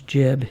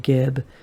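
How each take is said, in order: First: The word begins with a j sound. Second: The word begins with a hard g sound. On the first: The speaker calls it right. "It's actually the word jib" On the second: The speaker calls it wrong. "It's not like that"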